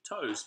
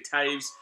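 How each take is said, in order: First: The name rhymes with goes. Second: The name rhymes with waves. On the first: The speaker calls it wrong. "you'd think Toes" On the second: The speaker calls it right. "it's actually Taves"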